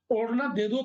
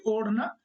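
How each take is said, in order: First: ओढ़ना pressed firmly, दे दो lighter; stress on ओढ़ना. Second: Said in the usual way. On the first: Shown as a demonstration. Teacher to students, stressing ओढ़ना in a demo. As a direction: lean your weight on ओढ़ना. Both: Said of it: "हम ओढ़ने पर बल दे रहे हैं".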